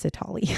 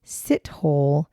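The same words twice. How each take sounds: First: "Sitali" said si-TAH-lee, quieter; the proper way: "Sitali", si-TAH-lee; correct pronunciation. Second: "Sithole" said as written, sit-hole; the spelled-out "Sithole" pronounced letter for letter; wrong pronunciation. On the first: Shown as a demonstration. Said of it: "That's how you say it". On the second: Retold or imitated. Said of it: "I most definitely pronounced it Sithole".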